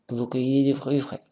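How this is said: The voice rises at the end like a question. It asks a question. "On a l'intonation de l'intonation"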